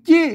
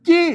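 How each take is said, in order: First: The word starts with an unaspirated 'j' sound. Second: The word starts with an unaspirated 'j' sound.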